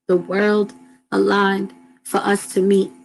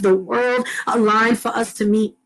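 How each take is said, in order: First: It is said slowly. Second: It is said fast.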